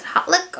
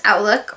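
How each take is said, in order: First: "Hotlook" as the H-first alternative, said a bit softer; sounded-H pronunciation. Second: "Outlook" starting like the word out; silent-H pronunciation. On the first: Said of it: "or you can pronounce it". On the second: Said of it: "I believe it's pronounced". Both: Shown as a demonstration.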